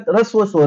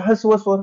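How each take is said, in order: First: ऱ्हस्व begun with r, as in Marathi; "ऱ्हस्व" pronounced rhasva, Marathi style; Marathi pronunciation. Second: हस्व begun on a plain h, as in Hindi; "हस्व" pronounced hasva, Hindi style; Hindi pronunciation. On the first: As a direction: say ऱ्हस्व the Marathi way, opening on an r sound. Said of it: "मराठीत काय म्हणतात". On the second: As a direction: say हस्व with an opening h and no r. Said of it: "हिंदीमध्ये काय म्हणतात". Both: Shown as a demonstration.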